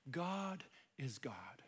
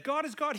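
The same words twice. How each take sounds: First: Whispered slowly, almost breathless with awe; hushed whisper. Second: "God is God" proclaimed higher and louder, stress on both "God"; loud emphatic declaration. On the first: Preacher telling listeners God is God, whispered. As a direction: let it drop to a slow whisper. Quiet emphatic aside to hearers. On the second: Jesus telling disciples "God is God", proclaimed loudly. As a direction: ring it out, "God is God". Preacher's climax of the point. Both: Real, not acted.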